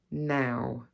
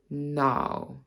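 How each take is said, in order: First: Said in the usual way. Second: 'now' with an RP vowel; RP accent. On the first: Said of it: "my own accent and the R P". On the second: Shown as a demonstration. Teacher contrasting RP with her own accent, RP accent. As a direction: RP accent, placed on the bottom lip. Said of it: "show you the difference between".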